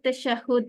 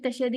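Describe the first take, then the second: First: The vowel before the final d is 'u'. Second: The vowel before the final d is 'a'. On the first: The speaker calls it right. "जैसे हम तअवुज़ कहते हैं इसी तरह ये त- तशहुद है" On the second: The speaker calls it wrong. "तशहद नहीं है ये"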